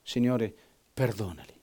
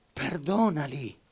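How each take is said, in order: First: Whispered, fading last words. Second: Slow, much softer and drawn out; slow soft plea. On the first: Preacher whispering dying Stephen's prayer. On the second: Preacher repeating Stephen's last plea, slowly and soft. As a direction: linger on it like a final sigh. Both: Retold or imitated.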